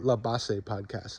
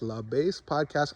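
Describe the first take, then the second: First: "Base" said as Spanish "bah-seh", two syllables; Spanish pronunciation. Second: "Base" said as English "bace", one syllable; "Base" rhymes with "face"; English pronunciation. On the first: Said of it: "don't know how it's pronounced". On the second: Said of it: "it's either La Base Podcast". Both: Shown as a demonstration.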